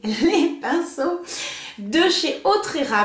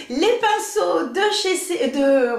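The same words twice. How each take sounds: First: Very slow, deliberate restart after a laugh; careful retry. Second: Slow, giggling through the brand name; laughing stumble. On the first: Vlogger retrying the brush brand name, slow and careful. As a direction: take it slowly this time. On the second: Vlogger fumbling the brush brand name, laughing. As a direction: trip over the name and laugh. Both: Real, not acted. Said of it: "mais je vais pas y arriver".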